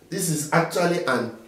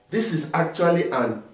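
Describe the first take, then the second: Both takes have the same delivery.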